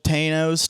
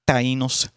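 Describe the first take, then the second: First: The name is said in a Midwestern American accent. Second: The name is said with a Spanish-style pronunciation. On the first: The speaker calls it wrong. "I said that with a pretty mid like Midwest accent" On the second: The speaker calls it right. "it's probably p- pronounced like Tainos"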